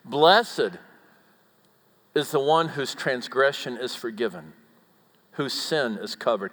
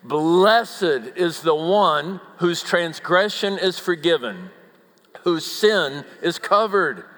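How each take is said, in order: First: It is read at a normal, moderate volume. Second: It is read loudly, in an outdoor voice.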